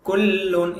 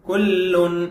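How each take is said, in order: The two takes are said the same way.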